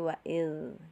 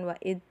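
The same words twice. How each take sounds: First: The final consonant flows on with continuous sound. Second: The final consonant is cut off abruptly. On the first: The speaker calls it right. "tapi wa'id gitu" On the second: The speaker calls it wrong. "bukan wa'id"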